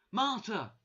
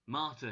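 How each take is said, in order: First: High, loud cry of a name; shouting. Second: Said in the usual way. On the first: A narrator's reading. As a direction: shout the name in sudden realisation. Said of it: "she shouted". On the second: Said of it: "he said".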